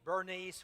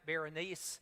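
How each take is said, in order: First: The name is said with two syllables. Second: The name is said with three syllables. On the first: "some people Bernice" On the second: "some people uh, pronounce it Berenice"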